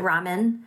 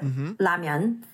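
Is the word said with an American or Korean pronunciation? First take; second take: American; Korean. First: Said the American way, ending in plain 'men'. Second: Said the Korean way, ending in 'myun'. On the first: "The Americans pronounce it ramen" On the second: "Koreans pronounce it ramyun"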